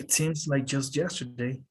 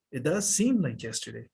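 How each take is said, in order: First: Said in the usual way. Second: Does seem stretched out; stress on does. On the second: Shown as a demonstration. Teacher contrasting plain and emphatic, stress on does. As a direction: put weight on does. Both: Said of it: "You're adding emphasis".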